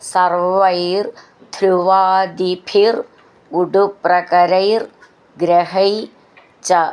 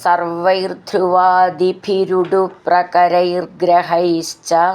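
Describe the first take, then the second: First: Each word is said apart with its own ending. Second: The words are run together with linked sounds.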